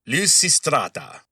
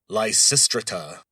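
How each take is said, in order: First: It is said in the speaker's plain accent. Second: It is said in a stuffy old English accent.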